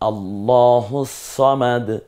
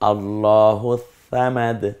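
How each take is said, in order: First: The s in samad is heavy and emphatic. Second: The s in samad sounds like th. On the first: The speaker calls it right. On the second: The speaker calls it wrong.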